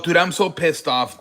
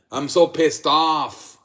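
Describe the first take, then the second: First: Said in the usual way. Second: "so" leaned on, words drawn out slowly; real annoyance, slowed down; slow, stressed "so". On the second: Real, not acted. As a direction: drag out "I'm so pissed off" slowly. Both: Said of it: "repeats complaint twice".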